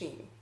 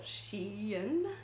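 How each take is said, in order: First: The name is said as one single syllable. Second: The name is split into two separate parts. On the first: "to me, it's just Shein" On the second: "like as if they're two different words"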